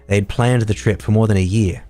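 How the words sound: It is read in an Australian accent. "if I do it in Aussie"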